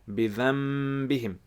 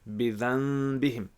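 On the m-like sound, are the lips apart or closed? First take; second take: closed; apart. First: The lips close fully on the nasal sound. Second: The lips stay slightly apart on the nasal sound. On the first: "you join your lips together" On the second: "you have a slight gap"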